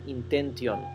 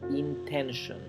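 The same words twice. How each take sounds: First: The last syllable starts with a t sound. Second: The last syllable starts with a sh sound. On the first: The speaker calls it wrong. "nunca lo pronuncien intention" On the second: The speaker calls it right. "se pronuncia como una sh"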